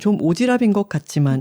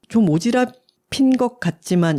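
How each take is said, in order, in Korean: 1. 이 표현은 편안하고 일상적인 방식으로 발음되었습니다. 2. 이 표현은 또박또박 정확하게 발음되었습니다. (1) "평소에는" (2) "제가 신경 써서 발음을 했는데"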